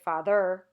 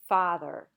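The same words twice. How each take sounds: First: The stress is on the second syllable. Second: The stress is on the first syllable. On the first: The speaker calls it wrong. "We don't say father" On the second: The speaker calls it right. "you naturally stress the first syllable"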